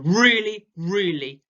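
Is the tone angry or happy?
angry. The voice sounds angry and aggressive. "a really, really angry and aggressive tone"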